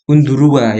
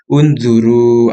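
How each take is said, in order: First: The word ends with an added 'a' sound. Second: The word ends on a plain 'u' sound. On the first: The speaker calls it wrong. "bacanya bukan undurua ya" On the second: The speaker calls it right. "tapi unzuru. Alif di sini di akhir tidak dibaca"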